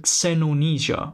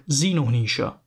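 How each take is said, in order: First: "Xenonesia," with the X sounded out at the start; first pronunciation variant. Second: "Xenonesia," with a plain Z sound at the start; alternative pronunciation. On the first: Presenter offering one way to say a fictional place name, first pronunciation variant. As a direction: say "Xenonesia," opening on a ks-like X. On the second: Presenter offering another way to say a fictional place name, alternative pronunciation. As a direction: say "Xenonesia," opening on zee. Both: Shown as a demonstration. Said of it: "depending on how you pronounce it".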